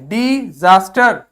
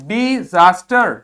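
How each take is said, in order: Both takes have the same delivery.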